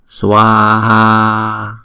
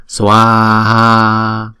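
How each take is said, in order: No difference in how they are said.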